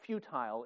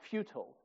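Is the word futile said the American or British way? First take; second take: British; American. First: The word is said with a British pronunciation. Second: The word is said with an American pronunciation.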